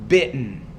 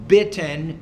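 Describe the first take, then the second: First: The middle T is a glottal stop. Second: The middle T is a clear T. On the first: This is how native speakers here actually say it. The speaker calls it right. "It's the glottal stop" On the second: People understand it, but it is not the local way. The speaker calls it wrong. "you can just say the T if you want"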